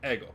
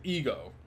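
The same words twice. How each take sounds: First: The first vowel sounds like 'eh'. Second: The first vowel sounds like 'ee'.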